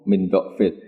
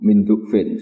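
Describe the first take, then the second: First: The first vowel of the word is an 'a'. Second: The first vowel of the word is a 'u'. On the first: "Itu harus bifatidot semua" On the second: "Dibaca bidomit dok"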